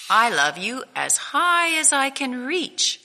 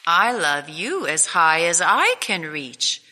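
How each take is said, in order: First: Higher, eager little bunny voice; louder, higher young hare boasting. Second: Father hare outdoing his son, calm and firm; big hare. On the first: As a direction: reach up high with it like an eager small child. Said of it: "said Little Nut Brown Hare". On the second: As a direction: answer like a fond father topping his son. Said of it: "said Big Nut Brown Hare". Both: Acted.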